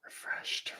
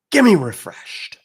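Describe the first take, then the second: First: Breathy whisper of refreshed, softly. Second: Higher, louder, slower call; loud demand for refreshed. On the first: Host whispering the chat word refreshed to viewers. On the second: Host loudly calling chat to type refreshed. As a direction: belt it to the crowd. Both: Shown as a demonstration. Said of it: "I wanna see the word refreshed".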